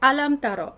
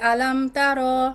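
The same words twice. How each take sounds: First: The final vowel of tara is short. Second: The final vowel of tara is lengthened. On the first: The speaker calls it right. "তারোতে কিন্তু মাদ নেই" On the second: The speaker calls it wrong. "এখন আমরা অনেকেই পড়ি"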